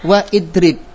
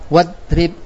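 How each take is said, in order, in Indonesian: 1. Hamzah dan vokal dibaca setelah wa. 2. Wa langsung menyambung ke kata tanpa hamzah. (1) "berarti salah" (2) "Kita baca wadrib"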